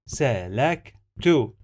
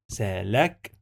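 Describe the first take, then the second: First: سلكت said slowly and clearly as salaktu; careful model. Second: سلكت said slowly as sa-la-ktu; slow syllables. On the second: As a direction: lay out سلكت for the class. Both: Shown as a demonstration. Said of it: "No, it is lek".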